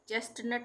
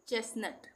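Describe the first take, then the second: First: The middle t sound is pronounced. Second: The middle t sound is silent. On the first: The speaker calls it wrong. "चेस्टनट नहीं पढ़ेंगे" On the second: The speaker calls it right. "जिसमें टी का उच्चारण नहीं होगा"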